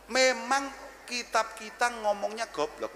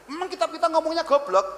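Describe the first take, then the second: First: Slow, drawn-out repeat; slow and deliberate. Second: Higher and louder punchline; emphatic. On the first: Repeating to the audience what the book says, slowly. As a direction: lay each word down slowly. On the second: Telling the audience what the book says, loud and emphatic. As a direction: hit it loud and high. Repeats the line twice. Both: Shown as a demonstration.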